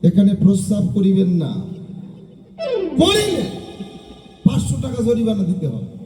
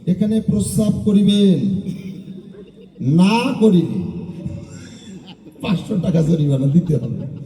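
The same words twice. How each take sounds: First: The pause comes after the word 'না'. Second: The pause comes before the word 'না'.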